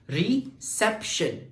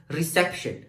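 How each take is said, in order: First: "reception" broken slowly into three separate beats; syllable by syllable. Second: Said in the usual way. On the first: Shown as a demonstration. Teacher counting syllables for students, "reception" slowly split in three. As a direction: say "reception" as ri, sep, shun with gaps. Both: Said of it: "let's pronunciate each syllable separately".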